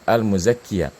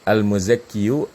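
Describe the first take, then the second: First: Al-muzakkiya said easily with a falling, light ya; light reading. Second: Al-muzakkiyu said slowly with a rising, effortful yu; heavy reading. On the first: Teacher contrasting the easy reading for students, light and falling. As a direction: let the final ya fall off lightly. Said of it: "Kalau al-muzakkiya itu enteng". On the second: Teacher contrasting the heavy reading for students, slow. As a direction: drag the final yu as if it were heavy. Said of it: "Antum bandingin aja". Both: Shown as a demonstration.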